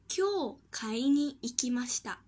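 There is a break right after kyou. Someone went shopping today. "后者在う和に后面断词"

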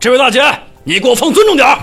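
It sounds stern and righteous, like Lu Zhishen.

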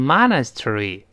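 It is said in an American accent. "美国人读成monastery"

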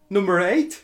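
It is said in a Liverpool northern accent.

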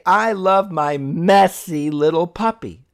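The stress is on the word messy.

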